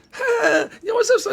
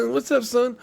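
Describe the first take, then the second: First: Much higher, laughing mock street greeting; Shorty caricature. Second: A bit higher, half-hearted mock greeting; lighter Shorty impression. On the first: Mocking the producer's exaggerated Shorty caricature to his cohost. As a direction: ham up a cartoonish Shorty impression. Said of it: "it's like me going like, instead of me". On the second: Showing the actor slipping in and out of his Shorty caricature. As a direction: toss off a lightly voiced Shorty. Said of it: "I'm Shorty, watch this".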